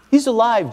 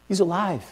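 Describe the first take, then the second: First: Said in the usual way. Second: Hushed proclamation. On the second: Acted. Preacher repeats the key proclamation.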